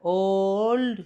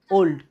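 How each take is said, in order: First: old with a long, stretched O in one unbroken breath; drawn-out syllable. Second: old short, as one quick syllable. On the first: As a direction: stretch old out slowly to test for breaks. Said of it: "ভাঙতে পারবি?". (Old টেনে লম্বা করে) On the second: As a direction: say old in a single short beat, unbroken. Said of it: "একবারে হলো". (Old একবারে, ছোট করে) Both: Shown as a demonstration.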